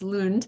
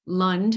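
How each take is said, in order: First: The name is said with a Swedish-style pronunciation. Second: The name is said in a New York accent. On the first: The speaker calls it right. "but it's Lund" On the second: The speaker calls it wrong. "I've been calling it Lund in my New York accent for many years"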